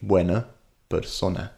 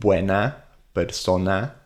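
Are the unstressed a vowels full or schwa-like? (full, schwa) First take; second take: schwa; full. First: The final a vowels are reduced to schwa. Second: The final a vowels are full and clear. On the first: The speaker calls it wrong. "we'd say buena persona. And I still do this, and it doesn't sound good" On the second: The speaker calls it right. "A sounds instead of"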